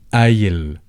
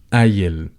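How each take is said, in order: First: The word begins with a glottal stop. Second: The word begins with a glottal stop.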